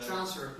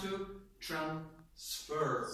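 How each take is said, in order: First: TRANSfer, stressed on the first syllable. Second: Slow transFER, second syllable drawn out; stress on FER. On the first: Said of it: "On the first syllable". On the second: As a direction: say "transfer" as a verb, stretching FER. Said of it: "And when we use verbs?". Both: Shown as a demonstration.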